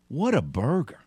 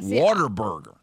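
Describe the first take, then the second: First: The first part is said as 'what a'. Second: The first part sounds like the word 'water'. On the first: The speaker calls it right. "This is how you pronounce the name of that establishment" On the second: The speaker calls it wrong. "It's not Water Burger"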